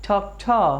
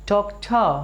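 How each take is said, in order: No difference in how they are said.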